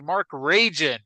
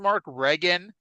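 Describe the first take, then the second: First: The name is said the way it is spelled. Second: The name is said the usual way, like Regan. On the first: The name is read the way it is written. "it's spelled R A G I N" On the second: This is how the name is actually pronounced. "that's how it's pronounced"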